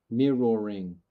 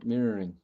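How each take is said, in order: First: "Mirroring" drawn out in careful syllables, "mir-ror-ring"; "Mirroring" with a full "ror" in the middle; over-enunciated word. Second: Said in the usual way. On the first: Shown as a demonstration. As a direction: sound out every syllable of "Mirroring". Practising the tricky word.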